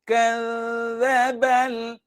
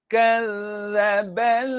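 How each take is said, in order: No difference in how they are said.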